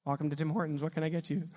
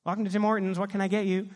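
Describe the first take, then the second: First: Understated, low-key order-taker; lightly voiced worker, subdued and matter-of-fact; drive-through worker. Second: Lightly voiced drive-through greeter; brisk order-taker's greeting, a bit raised; drive-through worker. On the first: Worker interrupting a weeping phone call, low-key drive-through worker. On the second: Worker greeting the next car at Tim Hortons, lightly voiced drive-through worker. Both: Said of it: "I'm in a drive-through at Tim Hortons".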